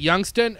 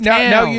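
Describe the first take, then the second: First: The last syllable is a reduced 'ston'. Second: The last syllable is a full 'stown'. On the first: The speaker calls it wrong. "I called it Youngston" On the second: The speaker calls it right. "Nah, motherfucker, this is ... Youngstown"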